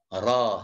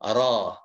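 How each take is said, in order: No difference in how they are said.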